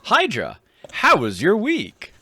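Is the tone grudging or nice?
nice. It is asked in a nice tone.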